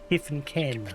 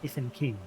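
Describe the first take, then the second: First: The last word has an 'e' vowel, like ken. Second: The last word has an 'i' vowel, like kin. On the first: The speaker calls it wrong. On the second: The speaker calls it right.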